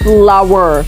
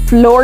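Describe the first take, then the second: First: The word is said as two syllables, 'flower'. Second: The word is said as one syllable, 'flor'. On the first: The speaker calls it right. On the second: The speaker calls it wrong. "फ्लोर नहीं"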